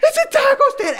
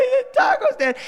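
First: Put-on high, wailing kid's sob-voice; mock-sobbing boy, much higher; imitating a sobbing child. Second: High crying wail with a laugh in it; hammed-up child's crying, much higher; imitating a sobbing child. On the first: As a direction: whimper it like a crushed nine-year-old. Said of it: "he just starts sobbing". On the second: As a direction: sob it out like a heartbroken kid. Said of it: "that nine-year-old sobbing".

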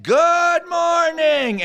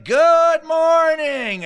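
First: High, loud, slow drawn-out greeting; cheery wake-up shout. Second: High, loud, slow sing-song greeting; cheery wake-up call. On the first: Drugged counselor waking the skunk-filled cabin, shouting cheerfully. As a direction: belt it out like it's sunrise. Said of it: "And he said". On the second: Camp counselor greeting the cabin, cheery loud sing-song. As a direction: burst out of bed greeting the day. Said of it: "he'd be like". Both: Retold or imitated.

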